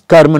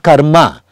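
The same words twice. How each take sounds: First: The final vowel is short or dropped. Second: The final vowel is drawn out long. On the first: The speaker calls it right. "Karma is karma" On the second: The speaker calls it wrong. "not karma"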